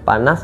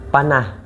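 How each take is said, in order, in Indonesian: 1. Kata ini berakhir dengan bunyi s yang jelas. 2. Kata ini berakhir dengan bunyi h yang berdesah. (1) "Perkataan belakang dia AS" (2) "AS akan jadi IH"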